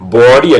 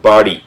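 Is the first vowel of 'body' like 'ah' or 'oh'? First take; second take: oh; ah. First: The first vowel sounds like oh. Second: The first vowel sounds like ah. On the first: The speaker calls it wrong. "ബോഡി അല്ല" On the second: The speaker calls it right. "ബോഡി അല്ല ബാഡി"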